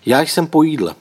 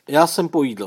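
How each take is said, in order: First: Louder, higher take at composure; forced calm. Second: Higher-pitched, trying to sound composed; forced calm. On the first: Tomáš answers his sister across the table, forced calm, louder. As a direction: project a calm answer, pitched up. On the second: Tomáš answers his sister, hiding bad news, forced calm. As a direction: say it as calmly as you can manage. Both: A narrator's reading. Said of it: "snažil se mluvit, jak nejklidněji dovedl".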